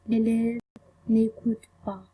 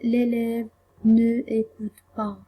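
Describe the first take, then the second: First: The word 'ne' is elided and joined to the verb. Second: The word 'ne' is said as a full separate syllable. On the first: The speaker calls it right. "On dit" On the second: The speaker calls it wrong. "on dit pas"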